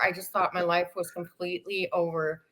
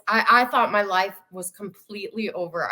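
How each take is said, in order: First: Repeated softer, trailing into despair; quieter, sinking. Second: Said in the usual way. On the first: Real, not acted. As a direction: let the line drop away softly. Despair retold, then repeated.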